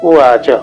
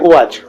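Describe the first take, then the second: First: The final cha is said with its full vowel. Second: The final ch is said without its vowel. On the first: The speaker calls it right. "ઉવાચ એ ત્યાં full form એનું ચનું સંભળાવવું જોઈએ" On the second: The speaker calls it wrong. "આવું બોલી દઈએ ગુજરાતીમાં, પણ એ રીત નથી"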